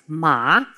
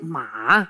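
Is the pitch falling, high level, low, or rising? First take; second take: rising; low. First: The pitch rises slightly, like a question. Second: The pitch is very low and deep. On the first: It means hemp. "Die gaat licht naar boven" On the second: It means horse. "De derde is een heel diepe. Die moet je voelen in je keel"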